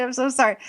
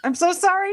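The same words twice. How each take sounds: First: Said in the usual way. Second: High, sing-song mock apology; mimicking the apologetic clerk. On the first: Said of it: "She just kept saying". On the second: Quoting the Waste Management clerk's endless apology, high and mocking. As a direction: parrot the clerk's canned sorry. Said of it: "She goes".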